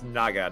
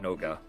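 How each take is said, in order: First: The first vowel is an open 'ah'. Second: The first vowel is a rounded 'oh'. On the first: The speaker calls it right. "it's Naga" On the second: The speaker calls it wrong. "not Noga"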